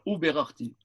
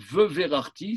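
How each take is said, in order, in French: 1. Il commence par un son 'oo' devant 'b'. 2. Il commence par un son 've' devant 'v'. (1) "Alors, ou berarti" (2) "ve verarti, ça, c'est, c'est pas possible"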